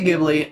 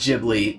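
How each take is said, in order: First: The opening does not sound like giblets. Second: The opening sounds like the word giblets. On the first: The speaker calls it right. "I say Ghibli" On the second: The speaker calls it wrong. "That sounds like giblets. It just doesn't sound right"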